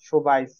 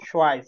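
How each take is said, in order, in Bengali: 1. শব্দটি 'b' ধ্বনি দিয়ে বলা হয়। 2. শব্দটি 'w' ধ্বনি দিয়ে বলা হয়। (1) "সুবাইস এটা না"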